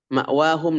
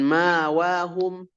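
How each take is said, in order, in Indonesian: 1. Hamzah yang jelas terdengar sebelum huruf w. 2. Tidak ada hamzah; yang terdengar vokal panjang. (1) "tetap dibaca tahqiq" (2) "bukan ma'wahum"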